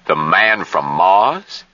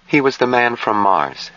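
First: Slow question with MARS rising steeply; questioning echo. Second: Higher-pitched, drained statement with falling end; flat voice. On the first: Harshaw echoes Jill's answer, slowly questioning. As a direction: draw out MARS and lift it into a question. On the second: Jill answers who he was, in a flat voice. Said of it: "she answered in a flat voice". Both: A narrator's reading.

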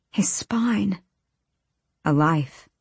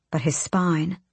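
First: Hushed, whispered repeat of SPINE; breath-only, soft realization. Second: Said in the usual way. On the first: A narrator's reading. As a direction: whisper "His spine" as dread sinks in. Horrified repeat of the words.

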